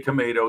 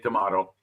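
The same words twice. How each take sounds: First: It is said with an American pronunciation. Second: It is said with a British pronunciation. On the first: This is how it is said where the speaker lives. "over here it's spoken that way. So we say tomato" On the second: This is how the listeners say it. "you say tomato"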